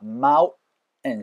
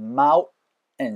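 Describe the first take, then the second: First: The t becomes a catch in the throat. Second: The t becomes a catch in the throat.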